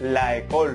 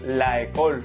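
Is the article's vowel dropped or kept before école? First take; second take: kept; kept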